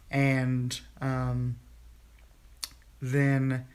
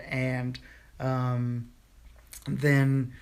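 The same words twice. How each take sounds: The two takes are said the same way.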